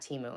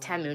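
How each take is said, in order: First: The first vowel is not a short 'eh'. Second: The first vowel is a short 'eh' sound. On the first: The speaker calls it wrong. "not Timu" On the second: The speaker calls it right. "It's Temu, not Timu ... it's a short. It's like T E H"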